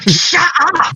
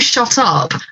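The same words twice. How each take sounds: First: It is said very aggressively. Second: It is said calmly, without aggression.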